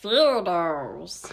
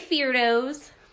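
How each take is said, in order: First: It is said in a special put-on voice. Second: It is said in a plain, normal voice. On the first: The speaker calls it right. "You have that that voice" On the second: The speaker calls it wrong. "You didn't say that the right way"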